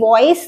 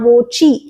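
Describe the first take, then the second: First: It is said like English 'voice', ending in s. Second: It has a 'ch' sound and ends in 'ee'. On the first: The speaker calls it wrong. "पहली बात तो ये वॉइस नहीं है, there is no I हेयर" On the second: The speaker calls it right. "और वोची"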